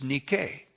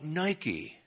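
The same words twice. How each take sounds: First: The word has the Greek pronunciation. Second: The word has the English pronunciation. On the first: The speaker calls it right. "In the Greek, it's pronounced nike" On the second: The speaker calls it wrong. "We mispronounce it in the English. We call it Nike"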